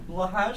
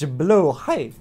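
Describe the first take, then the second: First: The second syllable sounds like 'hard'. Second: The second syllable sounds like 'high'. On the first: The speaker calls it wrong. "Blaw hard sounds way better" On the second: The speaker calls it right. "I understand it on a technical level. It's blaw high"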